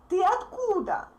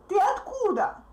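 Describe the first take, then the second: No difference in how they are said.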